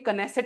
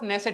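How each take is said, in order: First: The word begins with a clear K sound. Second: The word begins directly with an N sound. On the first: The speaker calls it wrong. "इसको कोई कनेसेट मत पढ़ लेना" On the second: The speaker calls it right. "के साइलेंट है"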